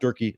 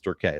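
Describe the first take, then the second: First: The name ends with an 'ee' sound. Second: The name ends with an 'ay' sound. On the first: The speaker calls it wrong. "It's not Durkey" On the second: The speaker calls it right. "It's Durkay"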